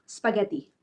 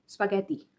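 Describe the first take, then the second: The two takes are said the same way.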